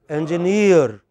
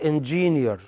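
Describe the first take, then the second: First: The stress is on the last syllable. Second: The stress is on the first syllable. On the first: The speaker calls it right. "The correct pronunciation is engineer" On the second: The speaker calls it wrong. "not engineer"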